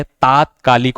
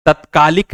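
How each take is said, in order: First: तात्कालिक with a long first "taa"; correct pronunciation. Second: तत्कालिक with a short first vowel, "tat-kaalik"; wrong pronunciation. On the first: Teacher giving students the right तात्कालिक, correctly pronounced. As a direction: stretch the opening vowel of तात्कालिक. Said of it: "तात्कालिक होता है". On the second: Teacher showing students the faulty तत्कालिक, mispronounced with short a. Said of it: "नहीं होता है". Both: Shown as a demonstration.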